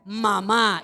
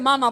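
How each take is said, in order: First: The stress is on the last syllable. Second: The stress is on the first syllable. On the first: "si le ponemos acento" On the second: "no le he puesto el acento"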